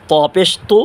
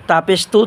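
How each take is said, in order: First: তু with a thick, heavy t. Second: তু with a light, thin t. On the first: Teacher contrasting ta letters for viewers, thick heavy তু. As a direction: make the t of তু full and heavy. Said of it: "মোটা আওয়াজে". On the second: Teacher contrasting ta letters for viewers, thin light তু. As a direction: say তু thinly, with a light t. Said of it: "চিকন আওয়াজে". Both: Shown as a demonstration.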